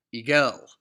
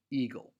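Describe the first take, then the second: First: Eagle with a loud second syllable; ee-GELL, punched on the end; wrong stress on GLE. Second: Eagle with the stress on EA; EA-gle, falling away on the second syllable; natural trochaic eagle, first syllable emphasized. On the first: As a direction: eagle deliberately mis-stressed on the last syllable. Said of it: "that it's not supposed to sound". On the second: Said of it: "the emphasis is on the E". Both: Shown as a demonstration.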